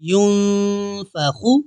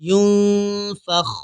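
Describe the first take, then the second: First: The word ends with a short u vowel. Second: The word ends on the kh consonant.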